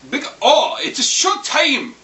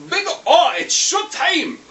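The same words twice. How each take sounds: First: High, loud mock Japanese "it's a showtime", slow; Japanese-accented catchphrase. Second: Very high, loud mock anime hero "showtime", slow; Japanese-accented catchphrase. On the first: Vlogger imitating the Japanese dub line, loud high mock announcer. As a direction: shout "it's a showtime" like a Japanese anime hero, high and drawn out. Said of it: "All it goes and says is". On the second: Retelling the hero's line to his viewers, high and loud. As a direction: belt "Big O, it's showtime!" in a high put-on Japanese voice. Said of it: "And he goes".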